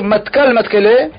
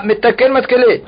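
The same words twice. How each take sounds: First: "Matkal Matkele", first word in two syllables, both with a; variant reading. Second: "Metakel Matkele", first word with e in its last syllable; first reading. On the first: Teacher giving the Tosfot reading to students, read as "Matkal Matkele". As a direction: say "Matkal" ending in -kal, before "Matkele". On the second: Reader quoting Rabbi Chaina's act to students, read as "Metakel Matkele". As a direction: say "Metakel" ending in -kel, before "Matkele". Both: Shown as a demonstration. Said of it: "il faut lire Matkal Matkele".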